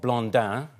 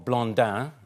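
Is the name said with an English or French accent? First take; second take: French; French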